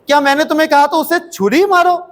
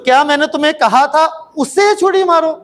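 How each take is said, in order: First: The stress is on छुरी. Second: The stress is on उसे.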